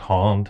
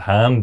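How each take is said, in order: First: The long vowel is pronounced at the back. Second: The long vowel is pronounced at the front. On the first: This is the broad vernacular pronunciation. "those are a real kind of deep Belfast pronunciations" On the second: This is the polite pronunciation. "hand is long, but it's not back"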